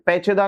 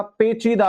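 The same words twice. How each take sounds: First: पेचीदा with short middle "che", "pecheda"; wrong vowel. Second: पेचीदा with a drawn-out "chee"; long ee. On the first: Teacher showing students the error, पेचीदा mispronounced "pecheda". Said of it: "पेचीदा नहीं होगा". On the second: Teacher correcting students, पेचीदा said slowly with long ee. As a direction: stretch the middle of पेचीदा, pe-CHEE-da. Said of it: "च पर बड़ी की मात्रा". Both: Shown as a demonstration.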